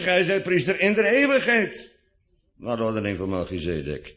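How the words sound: The emphasis falls on in de eeuwigheid. He remains a priest forever. "maar met de nadruk op in de eeuwigheid"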